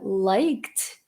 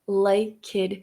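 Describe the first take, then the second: First: The word ends without an extra vowel. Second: An extra vowel is added before the ending. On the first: The speaker calls it right. "A palavra liked" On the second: The speaker calls it wrong. "acaba virando liked"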